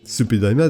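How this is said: The name is said with Japanese-style syllables.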